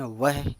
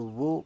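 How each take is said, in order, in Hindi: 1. शब्द 'ah' स्वर से खत्म होता है। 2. शब्द 'o' स्वर से खत्म होता है। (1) "वह हिंदी में पढ़ते हैं" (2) "वो उर्दू में पढ़ते हैं"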